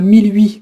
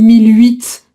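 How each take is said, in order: First: The final T of huit is silent. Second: The final T of huit is pronounced. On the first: The speaker calls it right. "on prononce pas le T" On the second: The speaker calls it wrong. "tu dis mille huit"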